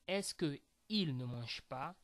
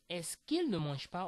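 First: The vowel of que is kept before il. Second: The vowel of que is dropped before il. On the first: The speaker calls it wrong. "Instead of saying" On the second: The speaker calls it right. "You will say"

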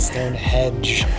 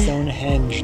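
First: The name ends like the word hedge. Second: The name ends with an n sound: henge. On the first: The speaker calls it wrong. "not Stonehenge" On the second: The speaker calls it right.

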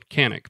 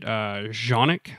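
First: The name begins with a hard K sound. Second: The name begins with a J sound. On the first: It is said the way the spelling looks to an English reader. "I'm going to say it Canik because it looks that way" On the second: It is said the way it is supposed to be said. "I've heard that's the way you're supposed to say it"

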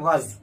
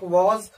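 First: The vowel is reduced and weak. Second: The vowel is full and clear. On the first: "जब हम speed में English बोलते हैं तो कहते हैं वज" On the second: "वॉज को दो तरह से हम प्रोनाउंस करते हैं, एक वॉज"

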